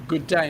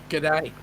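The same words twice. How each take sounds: First: "good day" with both words fully sounded; two full words. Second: "g'day" squeezed, first vowel nearly gone; shortened g'day. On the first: Listener teaching Sean the proper greeting, "good day" in full. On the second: Host reading out the wrong version, "g'day" contracted. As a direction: run "g'day" together Australian-style. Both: Shown as a demonstration. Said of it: "good day, not g'day".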